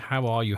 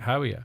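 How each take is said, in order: First: It is asked as a sincere, caring question. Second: It is tossed off as a quick greeting.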